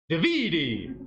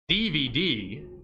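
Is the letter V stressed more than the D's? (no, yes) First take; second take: yes; no. First: The V is stressed more than the D's. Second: The V is not stressed more than the D's. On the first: "you're putting the emphasis on the V" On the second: "is how we say it normally"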